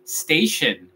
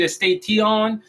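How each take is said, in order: First: "station" as "STEI-shen", no E in front; correct English pronunciation. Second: "station" as "es-tei-ti-ON", E added in front; wrong Spanish-style pronunciation. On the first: Teacher models the word for learners, correctly pronounced. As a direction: let "station" fall onto a light "shen". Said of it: "vamos a decir station". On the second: Teacher rejects the mistake, mispronounced. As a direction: say "station" with a literal "ti-on". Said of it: "no vamos a decir station". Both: Shown as a demonstration.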